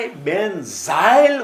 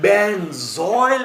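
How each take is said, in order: First: "benzyl" said slowly as ben-zail, open A glide; careful pronunciation. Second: "benzoyl" said slowly as ben-zoil, rounded O glide; careful pronunciation. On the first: Teacher answering how benzyl is pronounced, slow and emphatic on zail. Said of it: "આ કેવું ઉચ્ચાર થાય". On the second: Teacher answering how benzoyl is pronounced, slow and emphatic on zoil. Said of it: "આ કેવો થાય". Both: Shown as a demonstration.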